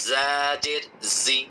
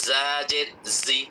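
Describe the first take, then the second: No difference in how they are said.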